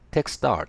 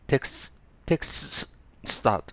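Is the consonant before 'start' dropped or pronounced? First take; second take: dropped; pronounced. First: The consonant before 'start' is dropped. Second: Every consonant in the cluster is pronounced. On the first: The speaker calls it right. "前のS を発音しない。" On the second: The speaker calls it wrong. "こう言いづらいです。"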